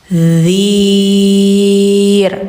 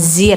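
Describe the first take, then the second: First: It starts with the tongue tip between the teeth. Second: It starts with a buzzing z sound. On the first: The speaker calls it right. "lidah ujung tempel gigi" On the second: The speaker calls it wrong. "bukan zir"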